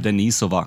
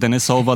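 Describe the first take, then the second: First: The name is said in its original, non-American form. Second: The name is said in an Americanized form. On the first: The speaker calls it right. "The original pronunciation is Denisova" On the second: The speaker calls it wrong. "that's like the easily accessible super American version of it"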